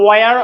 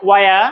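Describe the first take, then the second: First: "where" as wa-yar, final r sounded; American r ending. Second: "where" as wa-ya, the final r dropped; British r-less ending. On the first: Teacher offers the alternative, "where" with its final r. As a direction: pronounce the r closing "where": wa-yar. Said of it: "আরো উচ্চারণ করতে পারেন". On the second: Teacher models for learners, "where" without the final r. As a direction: leave the r off "where": wa-ya. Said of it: "ব্রিটিশরা আর উচ্চারণ করবে না". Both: Shown as a demonstration.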